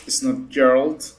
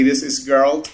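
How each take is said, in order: First: "Geralt" said like "Gerald" with a J sound; soft-G Geralt. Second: "Geralt" with a hard G as in "get". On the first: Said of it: "not the guy from Hey Arnold". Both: Shown as a demonstration.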